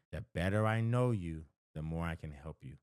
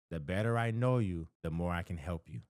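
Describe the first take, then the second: No difference in how they are said.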